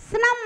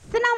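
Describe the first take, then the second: The two takes are said the same way.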